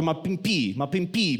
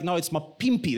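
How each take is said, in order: First: Pimpy with the weight on the last syllable, pim-PEE; misplaced stress. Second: Pimpy with a popped first P, PIM-py; first-syllable stress. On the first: Retold or imitated. Father imitating his son, pimpy stressed on the wrong syllable. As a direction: push the end of pimpy. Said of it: "That's what the emphasis". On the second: Shown as a demonstration. Father correcting his son, pimpy stressed on the first syllable. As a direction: get the first P of pimpy out firmly. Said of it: "like that first P".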